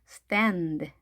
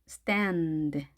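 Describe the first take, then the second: The two takes are said the same way.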